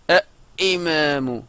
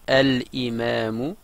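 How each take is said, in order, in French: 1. Le L de l'article ne se prononce pas. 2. Le L de l'article se prononce. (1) "le deuxième, vous voyez qu'il est compliqué" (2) "qui me paraît plus fluide"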